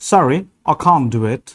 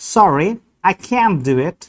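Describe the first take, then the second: First: The vowel in can't is a long broad ah. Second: The vowel in can't is a short flat a.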